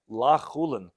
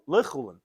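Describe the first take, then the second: First: The first syllable has a full 'a' vowel. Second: The first syllable has a short reduced vowel. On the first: It is not chulin. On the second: It should be chulin.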